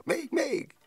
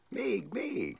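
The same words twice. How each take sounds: First: Even higher, louder squeal of "Még, még!"; a louder child's squeal of "Még, még!"; gleeful child shout. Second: High happy call of "Még, még!"; a child squealing "Még, még!" for more; gleeful child cry. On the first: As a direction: shriek "Még, még!" with full childish delight. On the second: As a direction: cry "Még, még!" like a delighted little girl being tossed. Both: Retold or imitated. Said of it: "kiáltotta".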